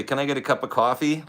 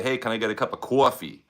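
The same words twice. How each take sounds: First: Said in the usual way. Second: In a New York accent, "coffee" said as kwaw-fee with a rounded vowel. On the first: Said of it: "like California". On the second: Shown as a demonstration. Ordering coffee at Starbucks in a New York accent. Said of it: "But you gotta say".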